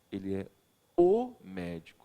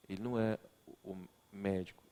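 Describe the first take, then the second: First: O stretched and hit, médico dropped; stress on o. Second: Said in the usual way. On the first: Shown as a demonstration. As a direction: hang on the o in o médico. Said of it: "a pronúncia que eu utilizei". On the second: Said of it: "e eu falo assim, olha bem aqui a mim".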